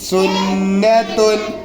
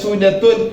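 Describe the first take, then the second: First: The n sound is held long and doubled. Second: The n sound is short and single. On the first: The speaker calls it right. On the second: The speaker calls it wrong.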